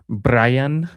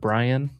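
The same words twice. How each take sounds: First: The name is said with Spanish sounds. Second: The name is said with English sounds. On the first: "pronounced in Spanish" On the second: "instead of"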